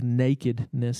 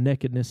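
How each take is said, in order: First: The word is said with a standard pronunciation. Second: The word is said with an East Texas pronunciation. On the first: "instead of nakedness" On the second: "Reese made fun of me for saying nakedness"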